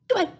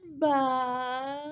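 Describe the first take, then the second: First: It is said fast. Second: It is said slowly.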